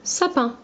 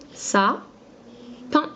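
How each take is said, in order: First: Said in the usual way. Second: "Sa-pin" said in two separate syllables, rising at the end; split into syllables. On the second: Shown as a demonstration. Teacher to a child, sounding out "Sa-pin" syllable by syllable. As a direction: break "Sa-pin" into its two beats, lifting the last one.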